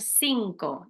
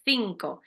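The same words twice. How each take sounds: First: It is said in a Latin American Spanish accent. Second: It is said in a Spain Spanish accent. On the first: This is how families from Argentina or Colombia say it. "Muchos de vuestros mamás, papás dicen cinco" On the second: This is how someone from central Spain says it. "yo digo cinco. Yo soy de mitad del medio de España"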